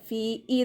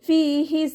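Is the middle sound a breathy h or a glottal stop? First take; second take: glottal stop; breathy h. First: The middle sound is a glottal stop. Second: The middle sound is a breathy h. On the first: The speaker calls it wrong. "ഹംസയുടെ സൗണ്ടായി പോവരുത്" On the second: The speaker calls it right. "അതുപോലെ ഓതുക"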